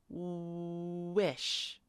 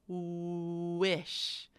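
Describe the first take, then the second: No difference in how they are said.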